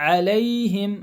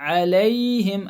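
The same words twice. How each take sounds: Both takes have the same delivery.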